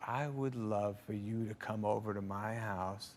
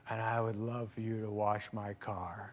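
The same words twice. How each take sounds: First: Low, soft, slow mock Ford; Harrison Ford. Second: Low, soft, slow deadpan punchline; quiet and slow, straight-faced; Harrison Ford. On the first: Harrison Ford inviting the young comic over, quiet and slow. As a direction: drop it quiet and slow, deadpan. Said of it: "He goes". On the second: Retold or imitated. Harrison Ford asking him to wash the car, quiet and slow. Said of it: "he goes".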